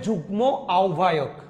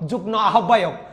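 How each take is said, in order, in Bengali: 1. প্রথম শব্দ যুগ্মের ম ধ্বনিটি উচ্চারিত হয়। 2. প্রথম শব্দ যুগ্মের ম ধ্বনিটি নীরব। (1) "এটা হবে যুগ্ম আহ্বায়ক।" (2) "আপনারা অনেকে বলে যে ... দুইটাই উচ্চারণ ভুল।"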